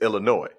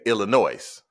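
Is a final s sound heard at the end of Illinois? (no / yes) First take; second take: no; yes. First: The word ends without any s sound. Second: The word ends with an audible s sound. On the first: The speaker calls it right. "I think that's the correct pronunciation" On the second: The speaker calls it wrong. "I like to put the S on Illinois"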